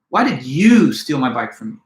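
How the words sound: The word "you" is stressed. "with the accent or emphasis placed on you"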